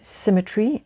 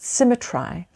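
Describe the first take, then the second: First: The modern pronunciation that does not rhyme. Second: An older pronunciation that rhymes with the stanza. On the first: This is how the word is said today. "in the way that we pronounce the word today" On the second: This is how the poet's time may have said it. "might have been pronounced symmetry, which would mean that it would rhyme"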